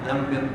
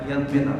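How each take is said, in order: The two takes are said the same way.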